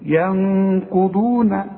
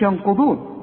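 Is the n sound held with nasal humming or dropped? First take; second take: held; dropped. First: The n sound is held with a nasal hum. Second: The n sound is cut short, no nasal hum. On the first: The speaker calls it right. "لازم تغنها" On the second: The speaker calls it wrong. "ما تقولش ينقضون وتضيعها"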